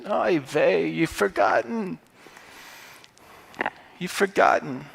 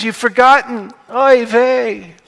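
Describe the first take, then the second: First: Put-on a light, softer Jewish accent on "oy vey"; Paul sighing in a mild Jewish accent. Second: Put-on Paul in a Yiddish-tinged accent, pitched higher and louder; a sighing Jewish "oy vey". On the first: Paul chiding believers in a soft Jewish accent. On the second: Paul chiding believers in a Jewish accent. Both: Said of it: "the Jewish accent".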